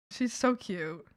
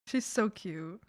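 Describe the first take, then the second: No difference in how they are said.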